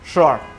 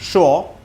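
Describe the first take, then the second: First: It is said in an American accent. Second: It is said in a British accent.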